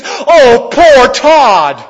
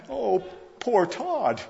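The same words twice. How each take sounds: First: Loud, high ironic lament; mock pity. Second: Slow, soft, drawn-out sarcastic sigh of pity; mock pity. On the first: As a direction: cry it out as if he were pitiable, tongue in cheek. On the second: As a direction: feign sorrow for him, quietly and slowly. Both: Mock pity for groom leaving family.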